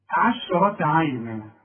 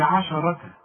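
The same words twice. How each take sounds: First: عشرة عينا drawn out slowly; slow recitation. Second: عشرة with vowel on الشين; wrong reading. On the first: (تلاوة بطيئة) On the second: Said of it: "اوعى تقول لي". (نطق خاطئ لعشرة) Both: Shown as a demonstration.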